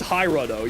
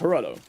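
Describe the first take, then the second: First: The first vowel is sounded like an I. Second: The first vowel is sounded like an E. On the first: The speaker calls it right. "there's no E's in there. There's an I" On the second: The speaker calls it wrong. "I doubled down on the bit of mispronouncing"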